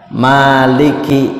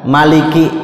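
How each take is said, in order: First: The first vowel is held long. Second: The first vowel is said short.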